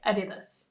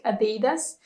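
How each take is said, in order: First: "Adidas" stressed at the start, "AH-di-das"; supposedly correct pronunciation. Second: "Adidas" stressed on the middle, "uh-DEE-das"; alternative mispronunciation. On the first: Shown as a demonstration. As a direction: say "Adidas" quietly as A-di-dus. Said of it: "you're supposed to say Adidas". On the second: Retold or imitated. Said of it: "heard people pronounce it like Adidas".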